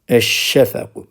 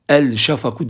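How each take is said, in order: First: The article's l is silent, merged into sh. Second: The article's l is clearly pronounced before sh. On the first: The speaker calls it right. "Onun için lamlar okunmuyor" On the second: The speaker calls it wrong. "El şafaku diyemeyiz"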